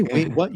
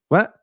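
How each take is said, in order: First: Rising mock-baffled "Wait, what?"; mocking cliché. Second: Said in the usual way. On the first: Shown as a demonstration. Correcting film dialogue, mocking the bad version. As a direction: sneer at the line. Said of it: "You don't say". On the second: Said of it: "You say".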